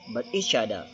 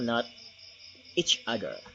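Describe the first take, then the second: First: The two words run together without a break. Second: The two words are said separately and clearly. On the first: The speaker calls it right. "just like mix uh, without space or without stop" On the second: The speaker calls it wrong. "say this phrase with each other, just clear"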